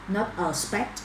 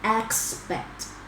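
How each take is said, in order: First: The word begins with a different vowel sound. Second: The word begins with the vowel of 'cat'. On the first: The speaker calls it wrong. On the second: The speaker calls it right. "So the first sound is air"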